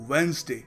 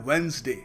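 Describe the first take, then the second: No difference in how they are said.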